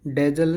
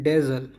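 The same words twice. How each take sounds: First: डेजल said with a hard j, "DEJ-al"; wrong pronunciation. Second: डेजल with a buzzing z, "DEZ-al"; correct pronunciation. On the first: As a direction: put a j where the z belongs in डेजल. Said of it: "डेजल नहीं". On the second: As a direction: model the z sound in डेजल. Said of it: "pronunciation पे ध्यान दीजिए". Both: Shown as a demonstration.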